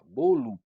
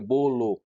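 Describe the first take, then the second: First: The final vowel is weak and reduced. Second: The final vowel is said full and clear. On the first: The speaker calls it right. "a sílaba final de bolo é átona e a gente pronuncia então dessa forma" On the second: The speaker calls it wrong. "a gente não pronuncia bolo"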